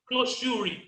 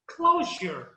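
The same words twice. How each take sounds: First: "closure" misread as "closhúri"; pronúncia errada. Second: "closure" as CLO-zher, falling; pronúncia correta. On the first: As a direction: say "closure" wrongly, with a "shuri" ending. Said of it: "não tem como eu vou começar a pronunciar". ("closure" errado, com final "júri") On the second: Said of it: "a última palavra é jar". ("closure" certo, com final "jâr") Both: Shown as a demonstration.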